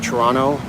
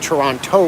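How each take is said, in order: First: The second T is dropped, sounding like Toronno. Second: The second T is pronounced hard and clearly. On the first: This is how most Canadians say it. "most Canadians will just say Toronto, like there's an N at the end" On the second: This is how Americans say it. "Americans will say Toronto when they pronounce the T real hard"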